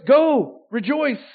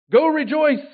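First: Go... rejoice, drawn out slowly; slow, deliberate preacher's command; slow emphatic command. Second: Loud, high urging to rejoice; emphatic command. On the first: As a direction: stretch the command, give each word weight. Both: Shown as a demonstration. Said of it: "Go rejoice repeated".

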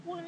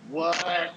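First: A tiny mock whispered what; playful imitated whisper. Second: Mock yelled what, higher and louder; a playful imitated yell. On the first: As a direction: breathe the what out under the voice. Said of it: "Sometimes they whisper". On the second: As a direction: bark out the what like a corpse yelling. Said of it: "sometimes they're yelling".

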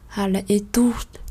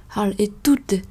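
Both takes have the same delivery.

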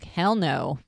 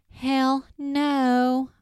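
First: Said in the usual way. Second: High, loud, drawn-out hammed-up refusal; exaggerated refusal. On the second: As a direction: overplay a flat-out refusal, stretching both words. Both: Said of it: "he didn't actually say it like that".

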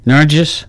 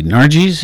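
First: Nargis said NAR-jus, short weak last vowel; Nargis ending in iss. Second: Nargis said NAR-jeez, long ee at the end; Nargis ending in eez. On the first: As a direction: try Nargis as a questioning "NAR-jiss". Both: Shown as a demonstration. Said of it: "is it?".

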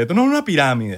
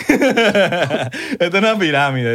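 First: Said in the usual way. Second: Slow, laughing sales pitch parody; mock the seller through laughter.

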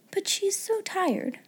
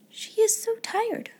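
First: Put-on high, soft little-girl voice; high, gentle sympathy with "so" stressed; pitying thought. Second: Put-on high girlish voice, leaning on "is"; high pitying tone, "is" emphasized; stress on IS. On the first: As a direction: pity her, high and soft, weight on "so". Sarah pities the sleeping maid. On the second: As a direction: insist gently that she "is" tired. Sarah repeats her pitying thought. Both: A narrator's reading.

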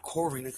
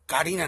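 First: First syllable of Corina said as "kor"; Corina said distinctly. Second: First syllable of Karina said as "kah"; Karina said distinctly. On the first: Ruling out the other name, Corina said distinctly. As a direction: say Corina with a rounded "kor" start. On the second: Naming the right girlfriend, Karina said distinctly. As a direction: say Karina clearly with an open "kah" start. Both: Shown as a demonstration. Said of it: "not Corina".

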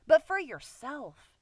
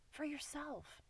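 First: But for yourself pressed out slowly and firmly; emphatic. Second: For yourself repeated much softer, almost to herself; soft echo. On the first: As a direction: lean hard on but for yourself. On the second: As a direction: let For yourself fall away quietly. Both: Shown as a demonstration.

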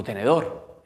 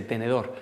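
First: "¿Tenedor?" asked with a rising, unsure tune; "¿Tenedor?" rising, half-baffled; puzzled question. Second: Said in the usual way. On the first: Retold or imitated. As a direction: ask "¿Tenedor?" like a confused kid. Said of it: "Y digo". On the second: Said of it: "Así que dije".

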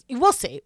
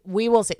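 First: Said in the usual way. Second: "We will see" with "will" spelled out and leaned on; "We will see" with a knowing weight on "will"; stress on will. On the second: Real, not acted. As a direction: lean into "will" meaningfully. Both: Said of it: "That's what I'm gonna say".

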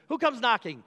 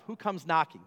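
First: Who comes knocking asked higher and louder; building question. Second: Said in the usual way. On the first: Shown as a demonstration. Preacher teasing the church before the reveal, higher and louder. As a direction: raise the stakes, push it up to the congregation. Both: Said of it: "Guess who comes knocking, church?".

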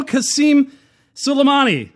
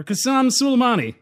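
First: "Qasem" said as kah-SEEM; first pronunciation. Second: "Qasem" said as kah-SAHM; alternative pronunciation. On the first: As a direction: say "Qasem" with a long ee in the second syllable. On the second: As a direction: say "Qasem" with an open ah in the second syllable. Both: Real, not acted. Offers two pronunciations of name.

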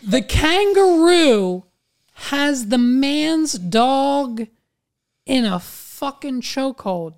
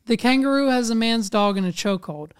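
First: Very slow, high, drawn-out delivery; incredulous emphasis. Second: Quick run through the whole sentence; fast, businesslike recap; brisk restatement. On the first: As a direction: spell out the outrage word by word. Incredulous repeat for emphasis, then quicker. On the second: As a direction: rattle it off as a setup. Same words again, briskly. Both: Real, not acted.

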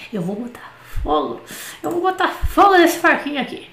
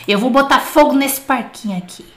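First: Away from mic. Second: Booming right into the mic; too loud. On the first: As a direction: voice set back from the mic. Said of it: "deixa eu afastar esse microfone aqui". (longe do microfone) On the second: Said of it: "Tô falando muito alto". (alto demais, perto do microfone) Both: Real, not acted.

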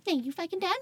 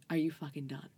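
First: High, whiny echo of the question; mock indignant. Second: Said in the usual way. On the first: Carried friend answers her rescuer back, mock indignant. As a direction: throw it back in a squeaky mock-outraged voice. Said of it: "And I'm like". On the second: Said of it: "And he was like".

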